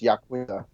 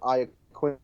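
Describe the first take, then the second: First: The name is said the older Italian way. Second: The name is said the Americanized way. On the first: This is the original way to say the name. "way back when it was pronounced Yaquinta" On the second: This is how the name is said today. "somewhat Americanized, and Iaquinta is how they say it now"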